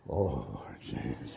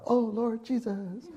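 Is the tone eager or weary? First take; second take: weary; eager. First: It is said in a weary, dragging way. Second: It is said brightly and eagerly.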